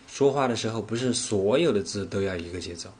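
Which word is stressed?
不是所有. The stress falls on the words 不是所有. It applies not to all words but only some. "我分别把重点放在了说话，不是所有，节奏这三个词上"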